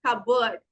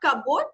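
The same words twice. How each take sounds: First: "cupboard" as CUB-erd, weak second vowel; correct pronunciation. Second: "cupboard" as cup-board with a full "oa" vowel; "cupboard" wrongly said like "ca-boat"; wrong pronunciation. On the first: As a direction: reduce "cupboard" to a short "kub-uhd". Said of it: "it is cupboard". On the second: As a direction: sound out "cupboard" with a clear "board" ending. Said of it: "It is not cupboard". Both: Shown as a demonstration.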